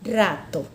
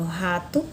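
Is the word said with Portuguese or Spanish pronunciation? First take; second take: Spanish; Portuguese. First: It is said with Spanish pronunciation. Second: It is said with Portuguese pronunciation. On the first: "na língua espanhola a pronúncia será rato" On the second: "na língua portuguesa eu tenho rato"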